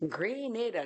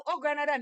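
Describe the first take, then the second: First: "Grenada" said gri-NAY-da, the local way; right pronunciation. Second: "Grenada" said gruh-NAH-da with a broad A, as outsiders say it; mock the outsider's "Grenada" with NAH stressed; wrong pronunciation. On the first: Shown as a demonstration. Correcting the outsider, she says "Grenada" as gri-NAY-da. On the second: Mocking how outsiders mispronounce her island, "Grenada" as gruh-NAH-da.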